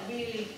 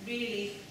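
No difference in how they are said.

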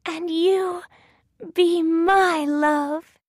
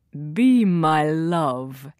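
First: High, slow little heroine voice; Thumbelina. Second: Low, slow prince voice; little prince. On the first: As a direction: return the proposal slowly, pitched high. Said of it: "says Thumbelina". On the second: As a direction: propose slowly in a lowered voice. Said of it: "he says to Thumbelina". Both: A narrator's reading.

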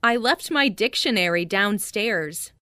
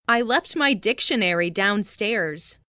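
Both takes have the same delivery.

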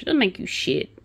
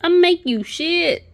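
First: Said in the usual way. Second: Higher, slow, mocking put-on voice; mocking silly voice.

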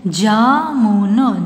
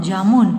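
First: jamun very slow, each sound held; syllable by syllable. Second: Said in the usual way. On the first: Shown as a demonstration. (जामुन को तोड़-तोड़ कर, धीरे) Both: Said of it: "sound pronounce करके देख लीजिए".

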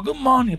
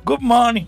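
First: Good morning in a put-on English accent, higher; posh English accent. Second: Louder, higher Good morning in a mock English-American accent. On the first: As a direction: greet them like a proper Englishman. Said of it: "pongo así, con acento muy inglés". (saludo con acento inglés impostado) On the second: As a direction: ham up a very English hello. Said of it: "con acento muy inglés ... entre inglés y americano". (acento inglés exagerado, más fuerte)

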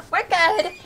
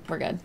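First: Relieved squeak, pitched well up; high squeaky relief. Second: Said in the usual way. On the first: Real, not acted. Streamer reassuring viewers after almost walking into a trap, high squeaky relief. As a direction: let relief lift the voice high.

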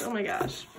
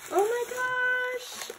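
First: Hushed, falling "Oh my gosh" under the breath; quiet. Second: High, slow squeal of "Oh my gosh"; high, drawn-out gasp of "Oh my gosh" in delight; amazed. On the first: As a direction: let "Oh my gosh" fall away softly. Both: Real, not acted. Amazed at the gift.

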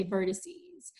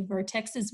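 First: Vertices, ending in a long -seez; correct plural form. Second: Vertexes, ending in an extra -es syllable after vertex; wrong plural form. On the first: Teacher showing pupils the plural of vertex, vertices said VER-tuh-seez. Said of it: "we say vertices". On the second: Teacher showing pupils the plural not to use, vertexes said as vertex plus -es. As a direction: say vertexes with the x kept before -es. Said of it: "We don't say vertexes". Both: Shown as a demonstration.

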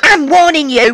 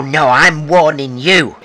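First: A high, loud I'm warning you with I'm hit hard; raised warning in a pub row; sharp threat. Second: A slow, deliberate I'm warning you leaning on you; slow threat thrown back; slow menacing threat. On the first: Escalating pub quarrel threat. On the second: Counter threat in quarrel. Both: Acted.

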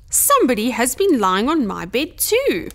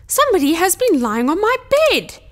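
First: Gentle Mother Bear, less forceful; a touch of soft, motherly dismay; lightly voiced gentle bear mother. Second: Loud, indignant Father Bear, pitch pushed up; big bear's loud, high outrage; gruff growl. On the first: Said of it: "Mother Bear said in her soft, gentle voice". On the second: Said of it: "Father Bear growled in his big, gruff voice". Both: A narrator's reading.

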